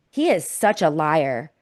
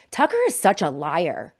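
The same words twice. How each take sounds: First: Slowed down, each word leaned on; He is such a liar, said slowly with weight on each word; slow, weighted repeat. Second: Said in the usual way. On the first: Real, not acted. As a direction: drive it home slowly, pressing every word. Host repeats it, slower, for emphasis.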